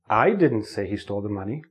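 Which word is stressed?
I. The stress falls on the word 'I'. Someone else said it, not the speaker. "If I put the stress on the first word, I, it changes the meaning of the sentence"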